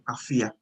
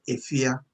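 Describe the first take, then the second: First: The word begins with an 'ah' vowel. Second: The word begins with an 'eh' vowel. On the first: "this people spell it with an A at the beginning" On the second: "the letter sound that we sound in Chi, E"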